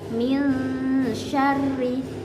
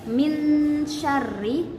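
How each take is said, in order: First: The n sound is blurred with a nasal hum. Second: The n sound is pronounced clearly and distinctly. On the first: The speaker calls it right. "harus samar, e, tidak jelas dan harus ada dengungnya" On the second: The speaker calls it wrong. "nggak boleh dibaca min syarri, no"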